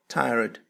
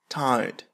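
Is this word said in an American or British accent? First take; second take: American; British. First: American accent, with the R sound. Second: British accent, with no R sound. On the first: "بالأمريكية" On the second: "بالبريطانية لا ينطقون الحرف R"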